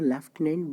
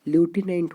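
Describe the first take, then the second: First: The first syllable sounds like 'lef'. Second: The first syllable sounds like 'loo'. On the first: The speaker calls it wrong. "Generally हम लोग बोलते हैं इसको लेफ्टिनेंट" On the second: The speaker calls it right. "But ये होता है क्या है, ल्यूटिनेंट होता है"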